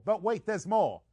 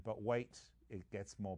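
First: Higher and louder hyped pitchman voice; infomercial pitchman. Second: Said in the usual way. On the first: Acted. Host hams up a TV ad pitch for the betting site, hyped pitchman. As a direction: sell it like a late-night TV ad.

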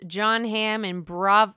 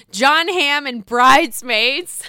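First: Said in the usual way. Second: "Jon Hamm and Bridesmaids" slow and louder, stressing the fix; emphatic correction. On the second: Real, not acted. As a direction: correct yourself firmly, word by word. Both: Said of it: "I can't get anything right today".

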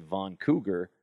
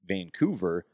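First: "Von Cougar" said for Vancouver, with VON and a hard g; "Von Cougar", an accidental garbling of Vancouver; mispronounced Vancouver. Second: Said in the usual way. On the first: Retold or imitated. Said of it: "accidentally said Von Cougar".

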